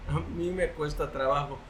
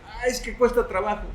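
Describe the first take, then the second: First: Said in the usual way. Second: Higher, sighing excuse; mock complaint. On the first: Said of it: "Déjenme confesarles". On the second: Listener objecting that study takes work, mock complaint. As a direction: imitate someone moaning that it's hard. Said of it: "Tal vez tú digas".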